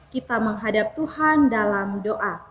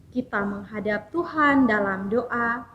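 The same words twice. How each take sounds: No difference in how they are said.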